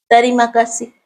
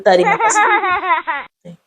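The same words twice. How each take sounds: First: A small, slightly raised greeting; timid greeting. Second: Drawn-out, much higher greeting through laughter; laughing reply. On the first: Retold or imitated. The scared little staffer greets her, lightly voiced. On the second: Acted. She greets the scared staffer back, high, slow and laughing. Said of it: "પછી મેં સામે એમ કીધું".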